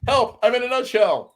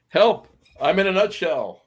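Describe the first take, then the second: First: Very high squeaky cry of Help! from inside a nutshell; tiny trapped voice crying help. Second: High squeaky cry for help from inside a nutshell; a mild mock cry of someone stuck inside a nut; tiny trapped voice crying help. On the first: Pretend. Host acts out being trapped in a nutshell, very high squeal. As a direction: squeal it like a tiny man shut inside a nut. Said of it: "This is me in a nutshell". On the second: Host jokes he is trapped in a nutshell, high mock cry. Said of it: "I was doing Michael Myers from, uh, Austin Powers".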